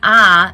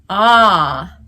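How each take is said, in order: First: The vowel is bright with a narrow throat. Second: The vowel is darker with more space behind. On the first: The speaker calls it wrong. "my ah wasn't an ah" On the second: The speaker calls it right. "it was an ah"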